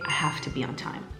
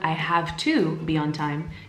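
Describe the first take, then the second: First: 'Have to' is squished into 'hafta'. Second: 'Have to' is said fully and carefully. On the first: "much more native, much more casual" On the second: "Instead of"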